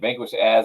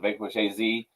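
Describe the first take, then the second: First: AZ is said as one word, like "as". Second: AZ is said as two separate letters. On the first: The speaker calls it wrong. "people read it as Vanquish as" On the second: The speaker calls it right. "It's A Z"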